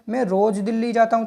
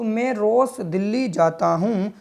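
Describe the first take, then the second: First: The word 'roz' ends with a z sound. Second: The word 'roz' ends with an s sound. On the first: It means daily, making the sentence meaningful. The speaker calls it right. "तो रोज़ तो जय पढ़ेंगे यहाँ पर इसको" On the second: It does not form a meaningful word. The speaker calls it wrong. "तो इसे हम सै पढ़ते"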